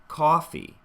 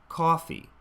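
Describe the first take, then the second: The two takes are said the same way.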